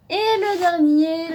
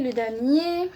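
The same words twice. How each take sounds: First: Slow, loud, high build-up; drawn-out showman's announcement; dramatic reveal. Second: Said in the usual way. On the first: Real, not acted. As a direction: announce it like a big unveiling. Dramatic reveal of last manga.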